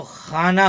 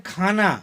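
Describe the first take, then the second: First: खाना with throaty x; xana, rough throat fricative; nukta x sound. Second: खाना with aspirated kh; plain kh sound. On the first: Teacher showing खाना meaning shelf with nukta. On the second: Teacher contrasting खाना meaning food. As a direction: khana as in food, stop sound. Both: Shown as a demonstration. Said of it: "नुक्ता लगा दिया अगर ख के नीचे".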